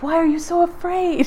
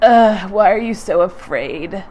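First: It sounds warm and encouraging, like a pep talk. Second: It sounds disgusted, cruel and shaming.

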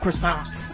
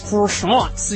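First: It is said with a Southern American pronunciation. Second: It is said with a put-on French pronunciation. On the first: "I'm down south, so I pronounce it croissants" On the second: "We were joking about pronouncing it all French"

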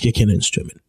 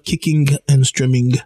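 First: The final g sound is dropped. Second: The final g sound is clearly pronounced. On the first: The speaker calls it right. "We never use the G" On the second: The speaker calls it wrong. "It's not Kicking and Streaming"

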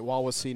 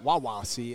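First: The 'Wawa' part is said lightly, without emphasis. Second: The 'Wawa' part is strongly emphasized and enunciated. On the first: The speaker calls it right. "you actually pronounced the school's name right" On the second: The speaker calls it wrong. "Everybody wants to really enunciate the Wawa"

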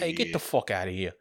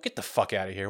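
First: It is said in a put-on Italian accent. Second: It is said in the speaker's plain voice.

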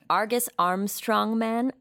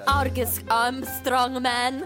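First: It is said in the speaker's ordinary accent. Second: It is said in a thick Italian accent.

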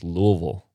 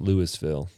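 First: The syllables are slurred together into one run. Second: The syllables are said clearly and separately. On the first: The speaker calls it right. "It's Louisville. You just slur it together" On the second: The speaker calls it wrong. "It's not Louisville"

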